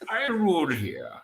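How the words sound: It is said in a muffled, masked villain voice.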